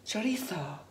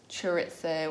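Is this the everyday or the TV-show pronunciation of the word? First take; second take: TV-show; everyday. First: It is said the way the cooking show says it. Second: It is said the speaker's usual everyday way.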